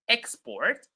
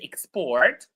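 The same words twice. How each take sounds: First: The stress is on the first syllable. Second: The stress is on the second syllable. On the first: It is used as a noun. "when these words are nouns, we stress the first syllable" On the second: It is used as a verb. "When they are verbs, we stress the second syllable"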